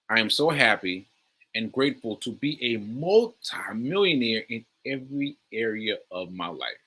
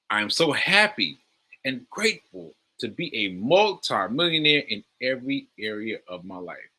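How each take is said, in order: First: It is said plainly, without much feeling. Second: It is said with strong, expressive feeling.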